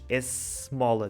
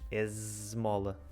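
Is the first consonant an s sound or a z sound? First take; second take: s sound; z sound. First: The first consonant is a voiceless s sound. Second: The first consonant is a voiced z sound. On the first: The speaker calls it wrong. "tu não dizes esmola" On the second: The speaker calls it right. "dizes esmola"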